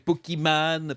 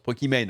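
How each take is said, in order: First: The ending sounds like the name 'Iman'. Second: The ending sounds like the English word 'main'. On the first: It follows her real first name. "c'est Pokimane parce qu'elle s'appelle Iman" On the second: This is how English speakers say it. "en anglais, on prononce Pokimane"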